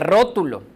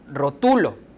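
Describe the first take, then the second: First: The stress is on the first syllable. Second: The stress is on the middle syllable. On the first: It is a noun meaning a drawing. "Sería la sílaba tónica al principio" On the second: It is a present-tense form of the verb to label. "como está escrita, es rotulo"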